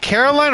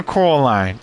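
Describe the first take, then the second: First: Caroline said "KAIR-oh-line"; pronunciation of Caroline. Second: Coraline said "CORE-uh-line"; pronunciation of Coraline. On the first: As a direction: open Caroline with a "care" sound. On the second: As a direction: open Coraline with a "core" sound. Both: Shown as a demonstration. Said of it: "Is it Caroline or Coraline?".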